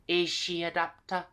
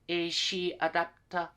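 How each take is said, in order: No difference in how they are said.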